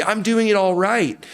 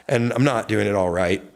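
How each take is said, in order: First: "I'm doing it all right" squealed high in playful pride; mock triumph. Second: Said in the usual way.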